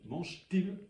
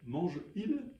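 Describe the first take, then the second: First: A t sound joins the two words. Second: No t sound joins the two words. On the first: The speaker calls it right. "on ajoute une lettre" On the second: The speaker calls it wrong. "Bah non"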